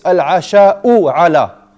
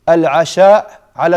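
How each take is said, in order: First: The first word ends with a short u vowel. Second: The first word ends without any final vowel. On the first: The speaker calls it right. "the response is al-asha'u ala, because you start with it" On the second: The speaker calls it wrong. "That's wrong"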